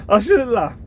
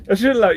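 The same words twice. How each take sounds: First: Laughing guiltily. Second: Repeated through giggles; fighting back a laugh; laughing guiltily; still laughing. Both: Real, not acted.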